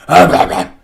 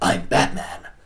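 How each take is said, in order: First: An exaggerated, hard-to-understand growling Batman voice. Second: A clear, understandable, intimidating Batman voice.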